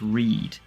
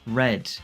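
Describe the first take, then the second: First: The vowel is a long 'ee' sound. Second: The vowel is a short 'eh' sound. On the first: The speaker calls it right. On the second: The speaker calls it wrong.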